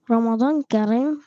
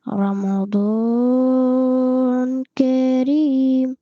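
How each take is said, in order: First: Said in the usual way. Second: Chanted, very long-held vowels on "رمضان كريم"; chanted greeting. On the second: Pretend. Retaking the Ramadan greeting, long drawn-out chanting of "رمضان كريم". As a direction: sing out "رمضان ... كريم", each word hugely stretched.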